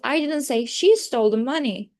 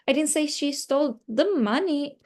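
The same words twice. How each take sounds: First: The word she carries the main stress. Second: The word money carries the main stress. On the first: Someone else stole the money. "I'm trying to focus on the she" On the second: She stole something other than money. "it means like she stole something different"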